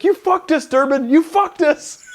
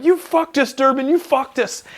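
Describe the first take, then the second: First: High-pitched mock shriek of a furious sergeant; imitating a yelling staff sergeant. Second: High-pitched mock wail; imitating a squealing staff sergeant. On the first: Staff sergeant going off at a marine over a fake certificate, high mock shriek. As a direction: squeal it like a panicked boss losing it. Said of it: "he's like". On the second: Retelling the staff sergeant blaming the marine, high mock wail. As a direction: squeal it like a boss in despair. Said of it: "I'll never forget Staff Sergeant Clem going".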